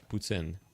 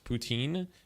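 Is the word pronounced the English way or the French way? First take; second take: French; English. First: The word is said with a French pronunciation. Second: The word is said with an English pronunciation. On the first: "the French pronunciation is" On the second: "the English pronunciation is"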